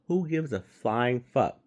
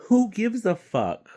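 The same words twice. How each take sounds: First: Slower, flatter scoff; who gives a flying fuck, said slow and scornful; dry scornful repeat. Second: Loud, high exasperated cry; who gives a fuck, cried out loud and high; exasperated outburst. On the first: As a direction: drop it back down with contempt. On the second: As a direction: throw the question up in disgust. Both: Real, not acted. Ranting about celebrity voice casting.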